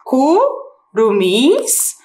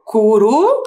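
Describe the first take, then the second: First: Curumins said very slowly with a break after cu; split word. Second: Curumins said very slowly with a break after curu; split word, other way. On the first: Teacher showing the first way to split a word. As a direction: pause between the parts of curumins. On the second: Teacher showing the second way to split a word. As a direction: pause later inside curumins. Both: Shown as a demonstration. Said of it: "Olha lá".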